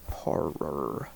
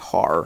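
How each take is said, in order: First: The second syllable is clearly enunciated. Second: The second syllable is slurred and unclear. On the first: The speaker calls it right. "I just have to enunciate that second syllable" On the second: The speaker calls it wrong. "I always want to say horror"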